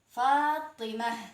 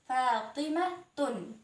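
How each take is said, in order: First: The word ends with a soft h sound. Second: The word ends with a t sound plus -un. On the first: The speaker stops after the word. "wakaf atau berhenti dibaca h" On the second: The word is joined to the next word. "Itu dibaca ta ketika disambung"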